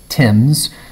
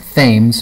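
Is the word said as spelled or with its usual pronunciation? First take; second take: usual pronunciation; as spelled. First: The word is said with its usual pronunciation. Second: The word is sounded out as it is spelled. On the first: The speaker calls it right. "but it's pronounced Thames" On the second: The speaker calls it wrong. "it's spelled Thames"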